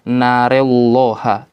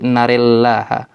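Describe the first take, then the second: First: The L of Allah is thick and heavy. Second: The L of Allah is thin and light. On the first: The speaker calls it wrong. "bukan narel narelloha" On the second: The speaker calls it right. "cara membacanya tipis"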